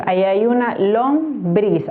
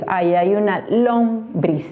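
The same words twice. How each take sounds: First: "lombriz" with the stress on the last syllable, lomBRIZ; stress on BRIZ. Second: "lombriz" with the stress moved to the first syllable, LOMbriz; stress on LOM. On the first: Teacher testing where the accent falls, stressing lomBRIZ. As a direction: slowly lean on BRIZ in "lombriz". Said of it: "como si la fuerza de acentuación estuviera en bris". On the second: Teacher testing where the accent falls, stressing LOMbriz. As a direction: slowly lean on LOM in "lombriz". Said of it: "la fuerza de acentuación estuviera en lombriz". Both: Shown as a demonstration.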